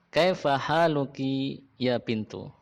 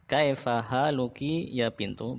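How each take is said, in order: First: Slow, careful Arabic phrase for learners; slow model reading. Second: Slow repeat of "Kaifa haluki ya bintu?" with a rising end. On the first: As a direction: say it slowly for the class to repeat. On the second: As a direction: repeat it slowly, asking. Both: Shown as a demonstration.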